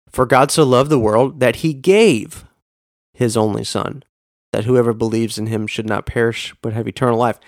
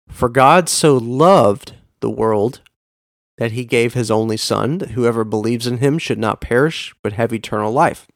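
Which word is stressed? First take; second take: gave; loved. First: The stress is on the word gave. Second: The stress is on the word loved.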